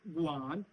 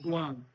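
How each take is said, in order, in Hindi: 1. पिच नीचे जाता है और फिर ऊपर आता है। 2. पिच ऊँचा है। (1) "अगर आप इसके ऊपर वी है आ" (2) "गुआन with high tone is is"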